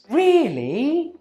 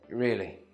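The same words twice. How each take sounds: First: The pitch rises at the end. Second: The pitch falls at the end. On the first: It asks a question. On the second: It confirms a statement.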